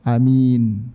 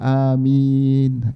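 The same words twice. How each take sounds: First: The first vowel is short, the second long. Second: Both vowels are drawn out long. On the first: "hamzahnya dibaca pendek" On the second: "yang paling tepat yang dibaca panjang"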